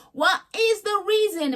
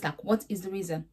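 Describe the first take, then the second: First: High, slow, drawn-out [name] impression. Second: Said in the usual way. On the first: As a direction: stretch the question like [name]. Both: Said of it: "In my [name]'s voice".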